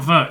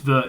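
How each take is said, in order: First: It is said in a high, nasal voice. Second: It is said in a low, less nasal voice.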